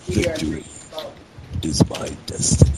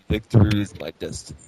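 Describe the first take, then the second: First: It is said slower, pausing after victory. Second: It is said without a pause after victory.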